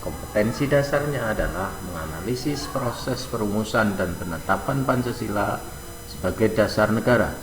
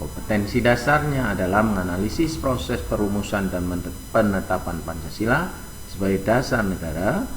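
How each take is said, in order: No difference in how they are said.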